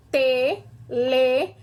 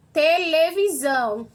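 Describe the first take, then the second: First: "Televisão" broken into slow syllables with gaps. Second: Said in the usual way. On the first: Shown as a demonstration. Teacher counting syllables for pupils, "Televisão" syllable by syllable. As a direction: say "Televisão" as te, le, vi, são, pausing after each. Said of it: "Eu abro a boca quatro vezes". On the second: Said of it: "Olha o outro exemplo".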